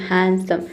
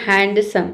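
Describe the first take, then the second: First: हैंडसम with no D, "han-sum"; silent D. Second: हैंडसम with a clear D, "hand-sum"; D sounded. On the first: Shown as a demonstration. Teacher corrects the students, हैंडसम with silent D. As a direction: drop the D in हैंडसम. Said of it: "हैंडसम नहीं होता है". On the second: Retold or imitated. Teacher imitates students' mistake, हैंडसम with sounded D. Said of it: "कई सारे student बोलते हैं".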